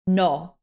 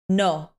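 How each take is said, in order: No difference in how they are said.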